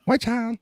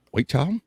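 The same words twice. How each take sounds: First: High-pitched echo. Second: Said in the usual way. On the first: Pretend. Repeats the phrase far higher.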